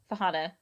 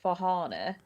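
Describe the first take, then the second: First: It is said in a plain, non-posh accent. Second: It is said in a very posh accent.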